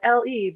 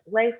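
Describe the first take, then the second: First: It is said as two separate letters. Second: It is said as one single syllable. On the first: The speaker calls it right. "I was just like L E" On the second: The speaker calls it wrong. "it always gets pronounced like Lay"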